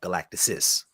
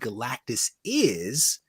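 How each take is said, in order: First: The two words run together as one. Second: The two words are said separately. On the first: "but it came out Galactusis" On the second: "I think I said Galactus is"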